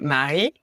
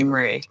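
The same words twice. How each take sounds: First: The name is pronounced the French way. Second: The name is pronounced the English way. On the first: This is how the family says it. "my parents would say" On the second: This is how most other people say it. "everybody else called me"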